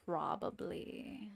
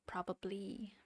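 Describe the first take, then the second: First: Slow, whispered "Probably." with a rising end. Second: Whispered probably. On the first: Streamer musing to herself over her drawing, slow whisper. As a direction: breathe "Probably." slowly, as a musing question. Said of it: "slow whispered repeat". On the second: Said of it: "whispered to herself". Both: Real, not acted.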